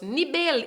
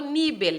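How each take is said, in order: First: The stress falls where Spanish places it. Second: The stress falls where Portuguese would place it. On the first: The speaker calls it right. "nivel y no nivel" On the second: The speaker calls it wrong. "y no nivel"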